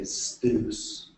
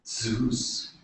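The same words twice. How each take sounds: First: Zeus slowly, starting with an st cluster; Greek pronunciation. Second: Said in the usual way. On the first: Shown as a demonstration. Lecturer correcting the usual name, Zeus as "stoos". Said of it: "you say Zeus". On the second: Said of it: "so instead of".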